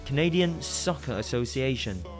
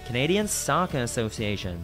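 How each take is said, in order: First: It is said in a British accent. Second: It is said in a Canadian accent. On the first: "bên Anh đọc là" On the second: "Ở bên Canada chắc là đọc là"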